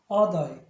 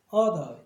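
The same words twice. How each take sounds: First: The first vowel sounds like ah. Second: The same.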